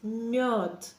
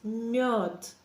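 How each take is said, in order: First: The soft m flows straight into the o vowel. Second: The soft m flows straight into the o vowel.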